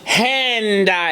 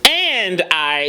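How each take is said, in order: First: The word starts with a quick breathy h. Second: The word starts with a hard glottal catch. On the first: "It was hand I" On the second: "It wasn't and I. It wasn't glottal"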